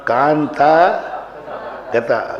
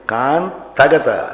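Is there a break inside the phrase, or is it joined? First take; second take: break; joined. First: There is a break after the first word. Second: It is said joined without any break. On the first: The speaker calls it wrong. "Kanta गता गलत हो गया" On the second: The speaker calls it right. "ऐसे"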